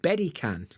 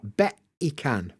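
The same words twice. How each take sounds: First: The t is a D-like tap. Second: The t is a glottal stop. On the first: "Almost got like a D sound" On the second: "usually you get a glottal stop"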